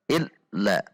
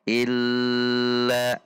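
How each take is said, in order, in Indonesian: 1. Konsonan ganda dibaca pendek dan terputus. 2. Konsonan ganda dibaca panjang. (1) "dihentak illa ... juga tidak boleh" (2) "illa itu panjang tidak boleh"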